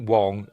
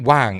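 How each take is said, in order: First: The vowel is like the one in 'song'. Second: The vowel is like the one in 'bang'. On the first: This is the way other people and the name's owner say it. "I know people pronounce it Wong" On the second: This is the way the speaker chooses to say it. "I'm going to pronounce it Wang"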